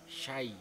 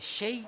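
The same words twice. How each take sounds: First: The vowel after sy is a clear open a. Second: The vowel after sy sounds unclear, like i. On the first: The speaker calls it right. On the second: The speaker calls it wrong.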